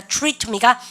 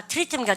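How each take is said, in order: First: "트리트입니까" starting choo-ree; English TR sound. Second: "트리트입니까" starting teu-ri; Koreanized TR. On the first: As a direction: turn the first 트 of "트리트입니까" into choo. ("트리트입니까"를 '추리트'로 발음) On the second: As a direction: keep a separate teu in "트리트입니까", softly. ("트리트입니까"를 글자대로 '트리트') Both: Shown as a demonstration. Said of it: "티알은 추추추".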